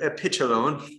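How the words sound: It is said in a put-on British accent.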